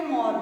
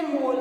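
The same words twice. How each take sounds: First: मॉल said with an open rounded ऑ; English open o. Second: मोल said with a pure long o; plain long o. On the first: Teacher showing the borrowed ऑ in मॉल. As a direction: open the mouth wide on the ऑ in मॉल. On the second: Teacher setting मोल against मॉल for pupils, plain o. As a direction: say मोल with a closed o sound. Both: Shown as a demonstration. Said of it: "इसका उच्चारण अपन कैसे करेंगे".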